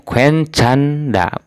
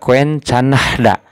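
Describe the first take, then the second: First: No h sound is heard before the final da. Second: An h sound is heard before the final da. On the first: The speaker calls it right. "Jadinya kuen canda" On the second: The speaker calls it wrong. "tidak kuen canahda ... salah ya"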